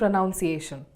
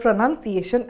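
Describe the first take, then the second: First: The word is said differently from its spelling. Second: The word is said just as it is spelled. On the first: The speaker calls it wrong. "end up saying pronunciation. This is wrong" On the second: The speaker calls it right. "as it is spelled"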